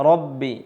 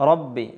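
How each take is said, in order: No difference in how they are said.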